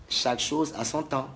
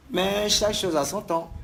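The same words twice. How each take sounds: First: Said in the usual way. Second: "chaque" pushed high and loud, rising; emphatic first take. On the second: Real, not acted. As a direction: land hard on "chaque", voice up.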